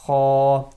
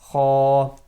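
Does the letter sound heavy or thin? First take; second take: heavy; heavy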